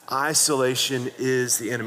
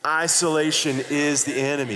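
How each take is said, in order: First: It is said with little conviction. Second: It is said with strong conviction.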